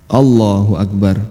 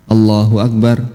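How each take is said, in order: The two takes are said the same way.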